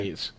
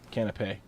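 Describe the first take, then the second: First: The final S is sounded. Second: The final S is silent. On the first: The speaker calls it wrong. "I'm just stupid" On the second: The speaker calls it right. "It's canapé then"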